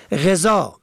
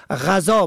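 First: غذا as "ghezā"; short "e" after the gh in غذا; kasra on first letter. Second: غذا as "ghazā"; fatha on first letter. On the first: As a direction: say غذا as ghe-zā. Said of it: "به کسر اول". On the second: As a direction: open "a" after the gh in غذا. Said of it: "به فتح اول". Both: Shown as a demonstration.

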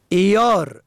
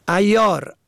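First: ایار as "iyār"; "i" sound opening ایار; kasra on first letter. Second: ایار as "ayyār"; fatha on first letter. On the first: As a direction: say ایار as i-yār. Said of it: "به کسر اول". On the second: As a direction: open "a" opening ایار. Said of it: "به فتح اول". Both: Shown as a demonstration.

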